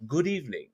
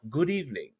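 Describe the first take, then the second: First: It is said in a Dracula impression voice. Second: The same.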